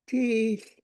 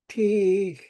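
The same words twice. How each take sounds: First: The pitch goes up on the vowel. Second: The pitch stays low on the vowel. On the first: "My voice goes up on uh, on the e's" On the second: "The same word without the tone mark"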